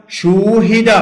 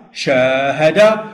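First: شوهد said higher and louder, with a clear rounded "شو"; passive form demo. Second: شاهد said slowly, with a long open "شا" vowel; active form demo. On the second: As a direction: stretch out شاهد, leaning on the long "aa" of شا. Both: Shown as a demonstration. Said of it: "لاحظوا شا صارت شو".

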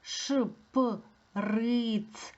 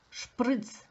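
First: ШПРИЦ pulled apart sound by sound, very slowly; slow, segmented teacher demonstration. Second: Said in the usual way. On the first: Shown as a demonstration. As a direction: stretch ШПРИЦ into separate pieces. Word sounded out, then said whole.

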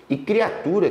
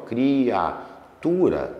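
First: Said in the usual way. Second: Criatura stretched very slowly, syllable by syllable; drawn out syllables. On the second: Shown as a demonstration. Teacher to class, Criatura spelled out slowly in sound. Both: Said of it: "ó".

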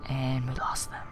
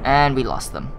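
First: Whispered repeat. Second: Said in the usual way. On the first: Real, not acted. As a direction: whisper it under your breath.

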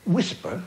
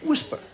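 First: Said in the usual way. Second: High disbelieving "Whisper."; incredulous. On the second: Real, not acted. Repeating the father's word for fart in disbelief. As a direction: echo "Whisper." in shock, pitched way up.

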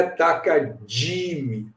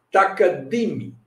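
First: "takadimi" with di said as a long 'djee'; Brazilian 'dji' sound. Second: "takadimi" with a plain hard d in di; Indian hard d. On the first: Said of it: "como o brasileiro costuma falar". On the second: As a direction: say "takadimi" with di as 'dee', no j sound. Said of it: "O indiano fala". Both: Shown as a demonstration.

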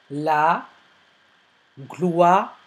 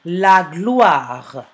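First: "La", long pause, then "gloire" drawn apart; syllable by syllable. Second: Said in the usual way. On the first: Shown as a demonstration. Teacher dictating to pupils, "La gloire" syllable by syllable. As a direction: split "La gloire" into separate syllables. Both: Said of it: "Travaillez par syllabe".

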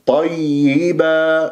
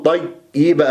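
First: طيبة chanted slowly, doubled y held; audible double Yaa. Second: طيبة with the doubled y snatched short; clipped Yaa. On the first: Teacher models it correctly, held double y in طيبة. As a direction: linger on the y and final aa of طيبة. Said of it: "لازم أسمع الياءات". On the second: Teacher shows the mistake, shortened y in طيبة. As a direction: rush through the y of طيبة. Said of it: "أختلس الياء". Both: Shown as a demonstration.

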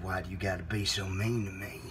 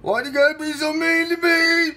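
First: Very low, soft restatement; low and quiet. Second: Loud, high-pitched hurt wail. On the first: Host repeating himself to caller, low quiet menace. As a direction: repeat it deep and hushed. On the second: Host to mean caller, loud hurt wail. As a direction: wail it like a wounded child. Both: Acted. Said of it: "I said".

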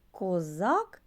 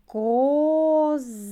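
First: Said in the usual way. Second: Козак with the О stretched long, high and loud; drawn-out stressed O. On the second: Shown as a demonstration. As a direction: pull out the О in Козак for the class. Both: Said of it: "Слухайте уважно".

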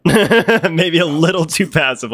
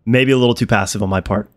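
First: Laughing. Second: Said in the usual way. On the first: Real, not acted.

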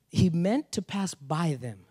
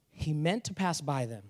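First: Slow, weighing each word of "He meant to pass by them"; slow emphatic reread. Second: Said in the usual way. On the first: Shown as a demonstration. Pastor rereads the verse to stress it, slowly. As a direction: let "meant" land slowly and deliberately.

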